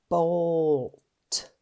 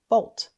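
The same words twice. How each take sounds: First: The word is sounded out slowly, sound by sound. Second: The word is said quickly as one blended unit. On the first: "Let's sound it out" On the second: "Say it fast"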